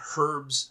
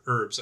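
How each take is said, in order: First: The word starts with a pronounced H. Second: The word starts with a silent H. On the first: "I have to pronounce that H for our Commonwealth friends" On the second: "the H is silent in the American version"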